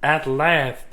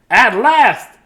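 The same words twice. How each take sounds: First: Understated sighed relief; weary sigh. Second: High, loud exclamation; triumphant relief. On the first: Dudley alone once more, sighing wearily. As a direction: let it out as a tired sigh. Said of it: "sighed Dudley". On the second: Dudley alone in his own house, loudly triumphant. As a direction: cry it out in delighted relief. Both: A narrator's reading.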